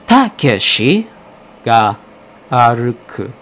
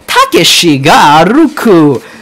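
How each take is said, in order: First: Syllables are evenly timed, like a metronome. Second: Syllables are unevenly stressed, with an American accent. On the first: The speaker calls it right. "you're supposed to go with like a metronome kind of thing" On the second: The speaker calls it wrong. "I'm not gonna go like"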